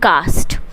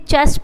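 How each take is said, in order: First: The word begins with a k sound. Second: The word begins with a ch sound. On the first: This reading helps to remember the word for the exam. "आप इसको पढ़िए कास्ट" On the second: This is the standard pronunciation of the word. "ये इसका सही pronunciation है"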